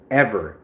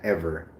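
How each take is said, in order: First: Ever. repeated louder with a falling tune; stress on Ever. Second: Said in the usual way. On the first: Shown as a demonstration. Repeating the word for emphasis, Ever. said louder. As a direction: land hard on Ever.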